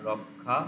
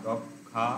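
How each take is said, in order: Both takes have the same delivery.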